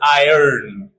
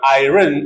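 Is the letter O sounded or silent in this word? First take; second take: silent; sounded. First: The O is silent, sounding like I earn. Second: The O is pronounced as its own vowel. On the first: The speaker calls it right. "it is iron. O is silent" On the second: The speaker calls it wrong. "This is also mostly mispronounced like iron. It is not iron"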